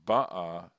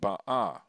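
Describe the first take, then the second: First: The stress is on the first syllable. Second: The stress is on the last syllable. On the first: The event already happened. "then it's past tense" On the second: The event is still to come. "when the accent's on the second, on the last syllable, it's imperfect"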